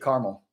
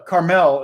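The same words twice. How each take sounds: First: It is said the way Indianans say it. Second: It is said the way Californians say it.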